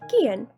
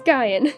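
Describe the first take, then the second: First: The name is pronounced in a calm, casual way. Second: The name is pronounced in a wicked, dramatic way. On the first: "the casual one, like Gian. Like, that sounds so calm and casual" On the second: "And then you got the wicked one, which is Gaian"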